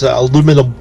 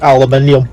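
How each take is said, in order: First: The word is said without the extra syllable. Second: The word is said with an extra syllable. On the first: "we say it right" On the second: "you add an extra syllable"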